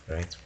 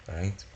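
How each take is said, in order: No difference in how they are said.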